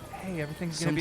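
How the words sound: It is said in a soft, tender movie tone. It sounds like a serious, emotional movie moment. "they do this. like, when it when it's like"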